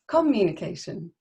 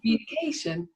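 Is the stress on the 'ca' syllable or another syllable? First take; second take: another syllable; ca syllable. First: The stress falls on a different syllable. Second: The stress falls on the 'ca' syllable. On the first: The speaker calls it wrong. "it can sound quite strange" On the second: The speaker calls it right. "You can tell my eyebrows go up on the stress syllable"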